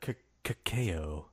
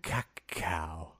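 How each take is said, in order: First: Cacao said slowly as "kuh-KAY-oh"; pronouncing cacao. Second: Cacao said as "kuh-KOW"; cacao, second try. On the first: Host tests how to say the word, slow and careful. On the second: Host settling the word, quiet and careful. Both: Shown as a demonstration. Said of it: "is that how you pronounce it".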